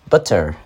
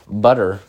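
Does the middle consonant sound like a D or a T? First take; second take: T; D. First: The middle consonant is a crisp T. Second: The middle consonant sounds like a soft D. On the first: The speaker calls it right. "when it's really T, it's pronounced butter" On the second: The speaker calls it wrong. "like, with the D"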